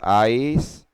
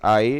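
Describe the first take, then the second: First: It ends with a clear s sound. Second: It ends without any s sound. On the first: The speaker calls it wrong. "आइस नहीं बोलना हमें" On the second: The speaker calls it right. "एस silent हो जाता है"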